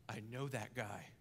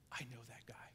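First: Said in the usual way. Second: Hushed whisper of recognition; whispered thought. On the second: Pretend. Listener whispering to himself, hushed whisper. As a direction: breathe it like a secret thought. Hearers thinking, whispered aside.

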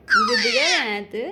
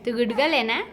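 First: Much higher sing-song coo on गुडगल. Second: Said in the usual way. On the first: Real, not acted. Mother coaxing baby, repeats. (बाळाशी उंच आवाजात लाडिक बोलणे)

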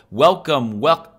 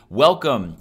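First: Imitated echo. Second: Said in the usual way. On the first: Shown as a demonstration. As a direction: echo repeat, cut off abruptly. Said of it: "it'll go". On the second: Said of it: "So if we go".

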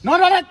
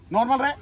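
First: Much louder and higher, exasperated; shouted order. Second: Said in the usual way. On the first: Real, not acted. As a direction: yell it so he finally relaxes. अरे normal रहे.

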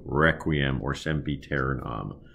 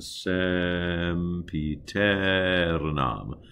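First: "requiem or sempiternam" with a curled English R; American R. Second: "sempiternam" slow with a light tapped R; slow flipped R demo. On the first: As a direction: show the wrong, curled R for contrast. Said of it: "as opposed to". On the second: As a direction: tap the R once, gently. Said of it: "give a gentle flip to all of the R's". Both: Shown as a demonstration.

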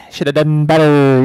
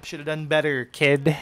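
First: Much louder mocking shout of the taunt; yelled taunt. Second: Cocky jab, a bit louder; taunting. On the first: Gamer yelling a taunt at a beaten opponent, loud mocking shout. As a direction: rub it in at full volume. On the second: Gamer taunting an opponent he just killed, cocky jab. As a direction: needle the beaten player. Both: Real, not acted.

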